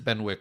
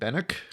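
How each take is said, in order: First: The W in the name is pronounced. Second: The W in the name is silent. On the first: The speaker calls it wrong. "uncouth American" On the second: The speaker calls it right. "with a silent W"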